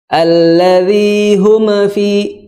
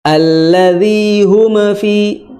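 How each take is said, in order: First: The m is released with a bouncing echo. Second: The m is released with a bouncing echo.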